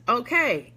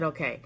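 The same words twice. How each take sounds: First: Said in the usual way. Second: Lower, softer okay; dad's low, quiet deadpan okay. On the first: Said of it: "so my dad says". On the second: Retold or imitated. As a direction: let okay drop low and quiet like dad. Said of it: "Yes, he said".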